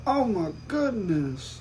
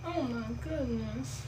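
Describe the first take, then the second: First: Slow, soft sexy voice; breathy bedroom voice. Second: Breathy, soft sexy voice; mocking a sultry voice. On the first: Retold or imitated. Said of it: "that's her sexy voice". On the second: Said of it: "That's her sexy voice".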